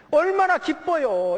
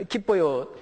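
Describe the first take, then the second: First: 얼마나 기뻐요 slow, much higher and louder; emphatic joy. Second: Said in the usual way. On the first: Shown as a demonstration. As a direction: stretch 얼마나 out high and loud in delight. (얼마나 기뻐요를 천천히, 높고 크게 강조) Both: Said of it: "이게 뭐 비유가 잘못됐습니다".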